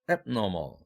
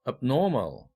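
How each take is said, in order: First: The main stress is on the prefix. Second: The stress falls on the stem, not the prefix.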